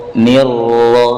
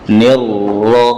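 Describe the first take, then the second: Both takes have the same delivery.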